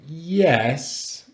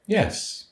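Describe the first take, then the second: First: Drawn-out "Yes", dipping then lifting; hesitant fall-rise. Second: "Yes" high, then falling; definite falling yes. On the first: Student asks for one more day, hesitant fall-rise. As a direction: hedge on "Yes", not fully certain. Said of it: "we have the full rise for maybe". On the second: Student answers teacher about homework, definite falling yes. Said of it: "could you hear the intonation there?". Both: Acted.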